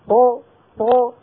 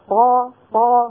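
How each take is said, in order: First: The letter ends in a short bouncing echo. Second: The letter is followed by a full 'a' vowel. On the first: "هذه طاء مقلقلة" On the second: "هذه طاء مفتوحة"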